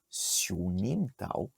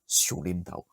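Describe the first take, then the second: First: The second syllable begins with an n sound. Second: The second syllable begins with an l sound. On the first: This is the standard form of the name. "la prononciation correcte, ça serait Sionim Tao" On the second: This is how most local people say it. "la plupart des locaux ... vont te dire Siolim Tao"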